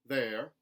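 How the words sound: The R sound is lightly pronounced. "a contemporary Southern, where those R colorations are put back in"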